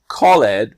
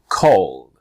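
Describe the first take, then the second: First: The ending is said as an extra syllable. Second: The ending adds no syllable; one syllable. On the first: The speaker calls it wrong. "not called" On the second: The speaker calls it right. "the E just disappears"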